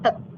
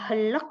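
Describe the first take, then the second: First: No consonant is heard before the final K. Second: An L sound is heard before the final K. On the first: The speaker calls it right. "tapi langsung hek gitu aja" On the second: The speaker calls it wrong. "bukan juga helek, nggak pakai L gitu ya"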